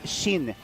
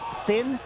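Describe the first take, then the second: First: The name begins with an sh sound. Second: The name begins with a plain s sound. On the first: The speaker calls it right. "In Japanese, is she and then the N" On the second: The speaker calls it wrong. "even though it says Sin"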